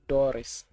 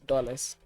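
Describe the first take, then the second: First: The word sounds like the name Doris. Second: The word is said clearly as dollars. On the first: The speaker calls it wrong. "One of my friends always say Doris" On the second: The speaker calls it right. "but it's dollars"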